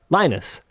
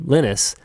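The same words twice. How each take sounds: First: The name is said in the English way. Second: The name is said in the Finnish way. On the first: This is how the letters are read in English. "Here in English, those letters in that order are not pronounced like that. They are Linus" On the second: This is how the name is said in Finland. "because he is Finnish"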